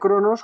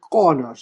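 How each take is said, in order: First: The word flows smoothly with no glottal catch. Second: A glottal catch breaks the middle of the word. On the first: It names the Greek god of time. "si se pronuncia Cronos como el dios del tiempo de los griegos" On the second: It names the Klingon home planet. "El apóstrofe es una pausa glotal en Klingon, así como, ¿vale?"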